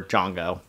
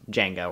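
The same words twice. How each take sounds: First: Django with a broad "ah", like JAHN-go; canon pronunciation. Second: Django with an "a" as in "jangle"; usual English pronunciation. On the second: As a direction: say Django as JANG-go. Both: Shown as a demonstration. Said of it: "they pronounce it slightly different in canon".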